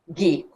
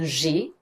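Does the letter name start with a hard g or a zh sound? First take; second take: hard g; zh sound. First: It starts with a hard g sound. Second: It starts with a soft zh sound. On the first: The speaker calls it right. "comme dans le mot français gare" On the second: The speaker calls it wrong. "pas un G"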